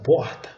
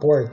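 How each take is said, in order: First: The word is said with a carioca accent. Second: The word is said with a pulled caipira R. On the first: "os cariocas falam porta" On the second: "Eu falo porta, eu puxo o R que eu sou caipira mesmo"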